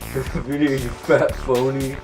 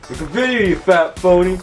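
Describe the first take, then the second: First: It is said at a normal, quieter volume. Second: It is said more loudly.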